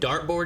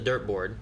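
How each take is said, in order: First: The first vowel sounds like in dart. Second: The first vowel sounds like in dirt.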